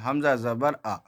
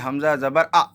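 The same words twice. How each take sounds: First: The final vowel is short and even. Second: The final vowel is cut off with a jolt. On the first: The speaker calls it right. "एकदम normal" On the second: The speaker calls it wrong. "यानी झटका देंगे"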